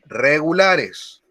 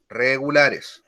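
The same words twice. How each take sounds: First: Regulares drawn out slowly; slow stress on regulares. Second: Said in the usual way. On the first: Shown as a demonstration. Teacher slowing regulares so students can write. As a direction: stretch out regulares for dictation. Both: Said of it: "al final de los verbos regulares".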